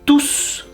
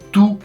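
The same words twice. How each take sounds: First: The final S sound is clearly pronounced. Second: The final S sound is silent. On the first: The word is used as a pronoun. "vous devez prononcer le S parce que c'est un pronom" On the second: The word is used as an adjective. "vous n'allez pas prononcer le S"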